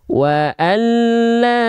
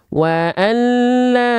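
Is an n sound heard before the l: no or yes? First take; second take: no; no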